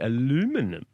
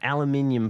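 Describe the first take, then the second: First: It is said the American way, with four syllables. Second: It is said the British way, with five syllables.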